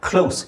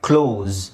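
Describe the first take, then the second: First: The word ends with an s sound. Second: The word ends with a z sound. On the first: "ಇಲ್ಲಿ ಎಸ್ ಇದೆ ತಾನೆ" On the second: "ಇಲ್ಲಿ ನೋಡಿ ಝೆಡ್ ಇದೆ"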